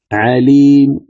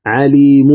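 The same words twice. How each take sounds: First: عليم ending in a weakened third of the u; عليم with the final vowel faint and short; عليم with a whispered trace of u at the end; stop with rawm. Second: عليم stopped with the full vowel; عليم with the final vowel said in full, as the wrong way; عليم with a complete, unreduced ending. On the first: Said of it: "فتضعف صوتك بالحركة وتأتي بثلث". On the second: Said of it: "هذا خطأ". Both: Shown as a demonstration.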